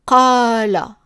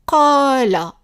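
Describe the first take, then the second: No difference in how they are said.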